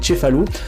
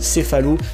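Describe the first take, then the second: First: The word begins with a 'ch' sound. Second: The word begins with an 's' sound. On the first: The speaker calls it right. "c'est Tchefalou" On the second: The speaker calls it wrong. "t'as pas dit Tchefalou"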